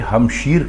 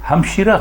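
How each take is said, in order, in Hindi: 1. शब्द r व्यंजन पर खत्म होता है। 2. शब्द a स्वर पर खत्म होता है। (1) "आप इसे हमशीर कहेंगे" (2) "हमशीरा गलत है"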